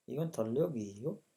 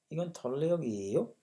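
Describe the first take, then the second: First: इगन थल्ले हो गई हो repeated with a rising end; second read of the question, हो lifted; Korean phrase repeated. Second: इगन थल्ले हो गई हो with a rising end on हो; Korean phrase read. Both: Shown as a demonstration. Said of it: "reading Korean dialogue".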